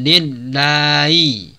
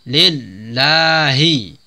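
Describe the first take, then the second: First: The H sound is weak and hard to hear. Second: The H sound is clearly pronounced. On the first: The speaker calls it wrong. "jangan lillahi" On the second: The speaker calls it right. "tapi lillahi"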